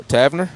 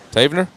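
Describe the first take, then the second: First: Tavener said as TAV-ner, questioning; unsure pronunciation, short a. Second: Tavener said as TAY-vuh-ner, questioning; unsure pronunciation, long a. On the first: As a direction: say Tavener with the a of cat, rising. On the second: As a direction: say Tavener with the a of day, rising. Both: Shown as a demonstration. Trying two pronunciations of a name.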